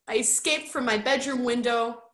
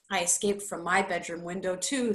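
First: Lightly voiced, plaintive boy; a touch of upset self-defence. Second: Quick, matter-of-fact comeback; unimpressed retort. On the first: Roderick explaining his escape to Bert, mildly upset. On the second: Bert matching Roderick's escape story, brisk retort. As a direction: rattle it back without sympathy. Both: A narrator's reading.

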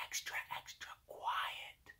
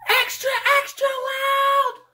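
First: Barely audible whisper; extra quiet. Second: High, drawn-out full yell; extra loud. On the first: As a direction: whisper it as softly as possible. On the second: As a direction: yell it slowly at full volume. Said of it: "when you want it to be". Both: Shown as a demonstration.

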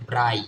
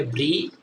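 First: "ব্রাই" with an eye diphthong; BRI read as "brai". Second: "ব্রি" with an ee vowel; BRI read as "bri". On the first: Teacher shows second reading of BRI, eye sound in "ব্রাই". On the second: Teacher shows first reading of BRI, ee sound in "ব্রি". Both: Shown as a demonstration. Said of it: "আই এর উচ্চারণ দুই রকম করব".

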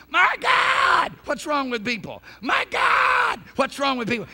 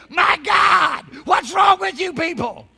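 First: High, loud cry on My God, falling off after; imitating Jack Cole. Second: High, loud exasperated cry; imitating Jack Cole. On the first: Preacher replaying Jack Cole's recorded cry, high shouted. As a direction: yelp My God way up, then drop. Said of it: "you just hear him going". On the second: Preacher quoting Jack Cole to the congregation, exasperated shout. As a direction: belt it like the old preacher did. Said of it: "as Jack Cole used to say".

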